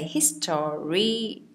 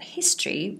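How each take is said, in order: First: The word is said with three syllables. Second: The word is said with two syllables. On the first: The speaker calls it wrong. "we don't say history" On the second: The speaker calls it right. "it's actually two syllables. You say that history"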